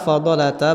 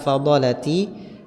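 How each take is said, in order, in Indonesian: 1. Kata itu diakhiri dengan vokal a. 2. Kata itu diakhiri dengan vokal i. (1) "kenapa fadalata" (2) "bukan fadalati"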